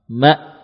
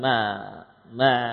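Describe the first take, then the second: First: The sound stops abruptly with no trailing noise. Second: The sound drags on with a trailing noise. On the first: The speaker calls it right. "suaranya berhenti spontan, ya. Langsung habis, tidak tersisa" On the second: The speaker calls it wrong. "terseret misalkan ma ma ... kurang sempurna tekanan pada makhraj hamzah"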